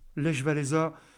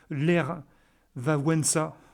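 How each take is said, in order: First: The name is pronounced with French sounds. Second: The name is pronounced with Polish sounds. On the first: "en français, on dit Lech Walesa" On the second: "en polonais, ça se dit Ler Wałęsa"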